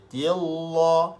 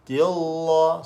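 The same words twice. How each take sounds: Both takes have the same delivery.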